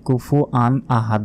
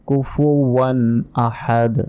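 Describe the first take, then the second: First: Kufu and an are split with no w sound. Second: Kufu and an are joined by a w sound. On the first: The speaker calls it wrong. "আমরা অনেকে কি বলি কুফু আন আহাদ বলি, এটা ভুল।" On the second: The speaker calls it right. "বলতে হবে কুফুয়ান আহাদ"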